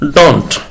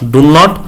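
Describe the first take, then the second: First: It is said as one short contracted word. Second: It is said as two full separate words. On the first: The speaker calls it right. "डोंट बोलेगा" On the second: The speaker calls it wrong. "डू नॉट नहीं"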